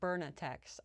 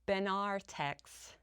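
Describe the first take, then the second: First: The R sound comes before the N. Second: The R sound comes after the N. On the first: The speaker calls it wrong. "not Bernatex" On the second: The speaker calls it right. "pronounce Benartex"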